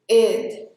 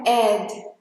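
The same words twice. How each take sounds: First: The vowel is closed, leaning toward i. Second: The vowel is open, like an open e. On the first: The speaker calls it right. "um E puxando para um I, que é um pouco mais fechado" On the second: The speaker calls it wrong. "Não é ed aberto"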